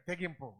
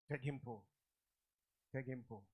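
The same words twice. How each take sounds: First: Said in the usual way. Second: తెగింపు said softly, lower; quiet repeat. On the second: Shown as a demonstration. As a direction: let తెగింపు sink to a soft murmur. (తెగింపు మెల్లగా) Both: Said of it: "తెగింపు, very good".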